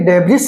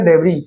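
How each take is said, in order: First: The final s sound is pronounced. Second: The final s sound is silent. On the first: The speaker calls it wrong. "ये डेब्रिस नहीं है" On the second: The speaker calls it right. "ये क्या बोला जाएगा डेबरी"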